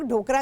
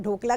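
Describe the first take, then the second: First: ढोकरा with an R before the final vowel; variant with R. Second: ढोकला with an L before the final vowel; variant with L. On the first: Host shows viewers how many people say the dish, ढोकरा with R. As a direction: say ढोकरा, ending in "-ra". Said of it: "बहुत सारे लोग ढोकरा कहते हैं". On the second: Host shows viewers the other name she learned, ढोकला with L. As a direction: say ढोकला, ending in "-la". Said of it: "बहुत सारे लोग ढोकला कहते हैं". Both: Shown as a demonstration.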